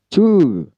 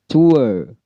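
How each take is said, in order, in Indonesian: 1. Vokal u biasa yang diikuti r yang jelas. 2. Vokal meluncur yang diakhiri r yang lemah. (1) "Dalam American u dan r saja" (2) "dalam British itu ue"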